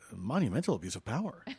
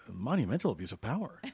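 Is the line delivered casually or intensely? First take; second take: casually; casually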